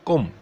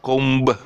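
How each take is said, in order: First: The final b is silent. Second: The final b is pronounced. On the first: The speaker calls it right. "C O M" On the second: The speaker calls it wrong. "Not comb"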